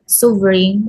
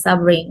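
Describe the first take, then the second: First: Suffering with an oo first vowel; student's mispronunciation. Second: Suffering with a short first vowel, stressed; correct pronunciation. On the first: Retold or imitated. Teacher showing how the student said suffering, mispronounced. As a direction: say suffering as SOO-vering. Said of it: "The student pronounced this as". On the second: Shown as a demonstration. Teacher explaining first-syllable stress, suffering correctly pronounced. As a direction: say suffering as SUV-ering. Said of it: "the correct pronunciation is".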